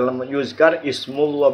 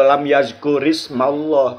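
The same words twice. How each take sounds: First: "yuzkar ismullah" with u-a, then -mul-; slow demo of "yuzkar ismullah", u vowels marked; contrasted correct reading. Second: "yazkur ismallah" with a-u, then -mal-; slow demo of "yazkur ismallah", a vowels marked; contrasted reading. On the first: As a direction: slowly say "yuzkar" and "ismullah" with a u before the l. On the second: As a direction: slowly say "yazkur" and "ismallah" with an a before the l. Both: Shown as a demonstration.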